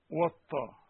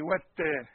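First: والطا with a heavy emphatic ط; wrong heavy ta. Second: والتا with a light thin ت; correct light ta. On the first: Teacher showing students the wrong heavy ta. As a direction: say والطا thick, as the mistake. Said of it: "ما تنفعش يا قمر". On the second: Teacher giving students the correct light ta. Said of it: "تقول إيه؟". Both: Shown as a demonstration.

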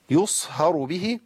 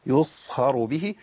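First: يصهر به with a thick emphatic ه; slow wrong model; wrong heavy haa. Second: Slow correct model; light thin haa. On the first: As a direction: demo the error on يصهر به. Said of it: "ما اقولش يصهر به". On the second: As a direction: model the correct يصهر به slowly. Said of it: "الهاء عندي مرققة". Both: Shown as a demonstration.

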